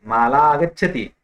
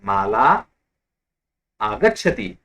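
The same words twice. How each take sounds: First: "माला आगच्छति" said quickly as one joined phrase with no gap; run together. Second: "Mala" then a long pause, then "आगच्छति"; words apart. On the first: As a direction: glide "Mala" straight into "आगच्छति". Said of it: "लेकिन अगर मैंने संहिता की". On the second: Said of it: "फिर से सुनिए". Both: Shown as a demonstration.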